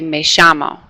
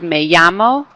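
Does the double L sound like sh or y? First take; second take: sh; y. First: The double L sounds like sh. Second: The double L sounds like a Y. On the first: "they do a sh sound" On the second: "Instead of saying a Y sound"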